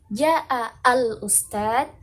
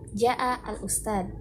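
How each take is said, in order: First: The word al-ustad is on a high pitch. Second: The phrase is said on a low pitch. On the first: "Al-ustadnya itu yang eh, nada tinggi" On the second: "nada rendah ... tanpa emosi"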